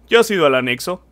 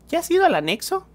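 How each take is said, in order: First: It is said in a put-on macho voice. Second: It is said in the speaker's normal voice.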